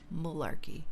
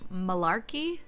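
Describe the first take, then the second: First: The stressed vowel sounds like U. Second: The stressed vowel sounds like a long A. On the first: "the U" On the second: "like with a, a long A"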